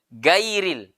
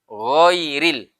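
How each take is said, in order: First: The first consonant is a light, plain g. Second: The first consonant is a thick, throaty gh. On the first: The speaker calls it wrong. "Ini tipis" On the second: The speaker calls it right.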